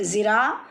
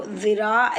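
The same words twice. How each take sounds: First: ज़िरा begun with z as in "zoo"; buzzing z variant. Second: ज़िरा begun with "th" as in "this"; tongue at the teeth, "dhiraa" for ज़िरा; dental dh variant. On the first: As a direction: buzz a clean z to start ज़िरा. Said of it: "दोनों आवाज़ें correct हैं". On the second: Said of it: "ऐसे भी पढ़िए". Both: Shown as a demonstration.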